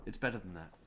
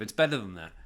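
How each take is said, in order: First: Much softer repeat; quiet aside. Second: Firm and louder; louder emphatic. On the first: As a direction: murmur it to yourself. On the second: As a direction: say it firmly out loud. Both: Shown as a demonstration.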